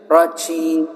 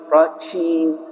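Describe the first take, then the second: The two takes are said the same way.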